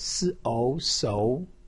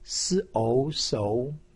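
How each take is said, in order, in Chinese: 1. 音高从中到高上升。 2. 音高从中到高上升。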